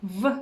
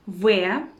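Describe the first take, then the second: First: V as a very short "vuh"; letter sound. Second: V said as Russian "veh"; letter name. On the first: Teacher showing teeth-on-lip sound, short letter sound vuh. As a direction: say only the brief sound of V. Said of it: "sound V". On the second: Teacher naming the third Russian letter, letter name veh. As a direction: say V as a full syllable, veh. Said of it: "which is letter". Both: Shown as a demonstration.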